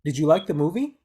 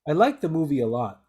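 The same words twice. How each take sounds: First: Movie rising up at the end; yes/no question, rising. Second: Lot falling at the end; falling statement. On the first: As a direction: lift the pitch on movie. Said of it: "because this is a question". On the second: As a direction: let the voice drop on lot. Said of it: "falling intonation". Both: Shown as a demonstration.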